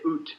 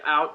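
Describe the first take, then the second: First: It is said with a Canadian accent. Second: It is said with an American accent.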